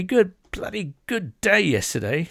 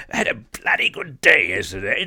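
First: Hammed-up British accent, pitched up on "bloody good day"; mock British accent. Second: Put-on a lighter British accent on "had a bloody good day yesterday", pitched back down; milder British accent. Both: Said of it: "That was a great accent".

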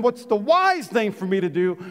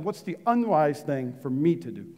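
First: "wise" lifted and stressed with a rising end; "wise" stressed, question rising. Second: "unwise" leaned on, low and soft; "unwise" said low and quiet, pressed; stress on unwise. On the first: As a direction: lift "wise" and ask it. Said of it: "If you can't ask the question". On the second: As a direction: drop low and hit "unwise". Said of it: "I want you to ask this question". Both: Shown as a demonstration.

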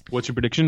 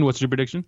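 First: Said in the usual way. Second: Boston accent on the question. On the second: Shown as a demonstration. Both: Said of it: "I just wanted to do the Boston accent".

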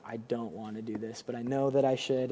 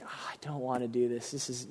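First: Soft, dreading inner voice; quiet, resigned reluctance; reluctant sigh. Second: Quiet, reluctant mumble under the breath; softer, dreading the call; reluctant groan. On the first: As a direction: speak it softer like an unwanted duty. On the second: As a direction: sound like you really don't want to. Reluctant pastor retold. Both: Retold or imitated.

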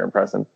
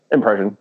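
First: "impression" said with an S in place of the SH; "impression" with a hissed S, no SH; slipped pronunciation. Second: Said in the usual way. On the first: Real, not acted. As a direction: slip to "im-press-un" in "impression". Same slip, corrected next.

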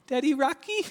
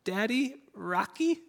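First: Put-on much higher, louder pleading little girl's call; second, more insistent take of a child's call through the monitor; louder little daughter calling. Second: Put-on high, rising little girl's call for daddy; little daughter calling. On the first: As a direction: cry out again like a toddler who won't wait. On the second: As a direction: call out like a sick toddler wanting to be rocked. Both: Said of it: "I can hear her cry through the monitor".

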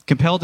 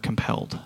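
First: Said in the usual way. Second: Breathy hushed whisper on "compelled"; whispered word. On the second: Real, not acted. Preacher savoring a favorite word to congregation, whispered. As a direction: breathe "compelled" softly, almost voiceless.

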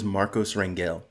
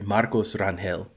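First: Said in the usual way. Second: Marcos Rangel said the Spanish way, rolled r and Rangel as ran-hel; slow Spanish Marcos Rangel, the g breathed like an h; Spanish pronunciation. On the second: Shown as a demonstration. Showing his podcast friends how his name sounds, Rangel in Spanish. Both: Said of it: "That's how you pronounce it".

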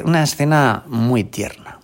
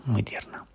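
First: Said in the usual way. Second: Whispered softly, much softer; whispered tender echo. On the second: Shown as a demonstration. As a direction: breathe it almost to yourself.

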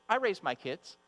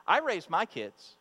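First: Said in the usual way. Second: Put-on I raised my kids with I leaned on, slow and amused; stress on I. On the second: Shown as a demonstration. Pastor teasing proud mothers, stress on I. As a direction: lean on I, slowly, through a laugh. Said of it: "sometimes I think we can think".

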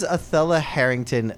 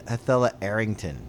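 First: Said in the usual way. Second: "Arrington" begun on the vowel, with no H; dropped H. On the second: Shown as a demonstration. Puzzling over the name with a friend, "Arrington" with the H dropped. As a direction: say "Arrington" without any opening H. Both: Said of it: "they dropped the H".

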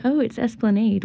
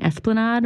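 First: "esplanade" ending in nade, higher pitch; esplanade with AYD. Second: "esplanade" ending in nahd; esplanade with AHD. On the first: Quoting people who correct her, higher-pitched local pronunciation. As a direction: say "esplanade" to rhyme with made, pitched up. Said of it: "They're like". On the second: Guest asks about being corrected, French-leaning pronunciation. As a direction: say "esplanade" to rhyme with odd. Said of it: "I was pronouncing esplanade wrong". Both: Retold or imitated.

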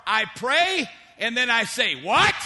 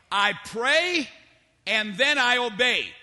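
First: Mock-incredulous, exploding on WHAT; balking disbelief. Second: Resolute, with a settled fall on obey; firm obedience. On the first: Preacher mimics believers balking at God's orders, mock disbelief. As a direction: pray along evenly, then burst out with a loud WHAT. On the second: Acted. Preacher models the obedient believer's answer, firm obedience. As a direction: state it as a firm rule, pausing midway.

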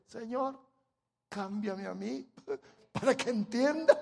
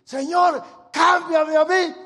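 First: Plain prayer breaking into a laugh. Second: High, loud, slow plea; fervent shouted prayer. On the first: Preacher suggesting a humbler prayer, light and chuckling. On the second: Preacher showing the church how to pray, loud slow plea. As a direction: cry it out to heaven. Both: Shown as a demonstration. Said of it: "eso no se nos ocurre decir".

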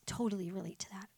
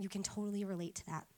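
First: Whispered echo of "Totally relate to that"; hushed aside "Totally relate to that". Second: Said in the usual way. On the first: Real, not acted. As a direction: repeat "Totally relate to that" under your breath. Repeated line, whispered echo.

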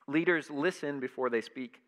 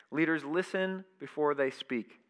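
Both takes have the same delivery.

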